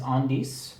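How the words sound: The word is pronounced with French sounds. "the French pronunciation is Indice"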